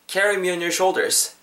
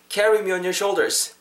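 No difference in how they are said.

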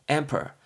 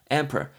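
Both takes have the same delivery.

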